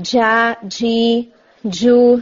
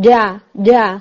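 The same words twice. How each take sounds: First: جا, جی said very slowly with air hissing through; loose airy jeem. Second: جا with a hard tongue hit and quick release, no air; crisp correct jeem; strong jeem. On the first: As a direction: keep the tongue on the roof and leak air. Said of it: "یہ sound آ رہی ہوتی ہے". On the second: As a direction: snap the jeem off the palate. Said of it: "بالکل ایک ہٹ کی آواز آ رہی ہے". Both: Shown as a demonstration.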